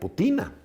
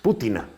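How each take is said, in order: First: The stress is not on the first syllable. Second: The stress is on the first syllable. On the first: The speaker calls it wrong. "usando tu palabra sería Putina" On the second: The speaker calls it right. "pero es Putina, porque los apellidos rusos son esdrújulos"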